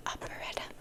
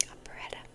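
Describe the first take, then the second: No difference in how they are said.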